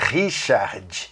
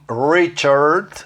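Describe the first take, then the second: First: The R is a Portuguese-style R sound. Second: The R is an American English R sound. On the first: The speaker calls it wrong. "não é Richard" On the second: The speaker calls it right. "é Ri, Richard"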